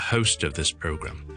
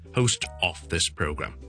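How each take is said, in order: First: The word 'of' is reduced and quick. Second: The word 'of' is full and slow. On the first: The speaker calls it right. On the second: The speaker calls it wrong.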